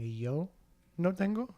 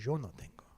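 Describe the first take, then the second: First: It is said in a non-Argentinian Spanish accent. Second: It is said in an Argentinian Spanish accent. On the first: "instead of saying" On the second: "if you were to do it in an Argentinian accent"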